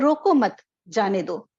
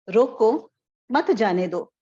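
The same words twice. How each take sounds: First: The pause comes right after मत. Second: The pause comes right after रोको.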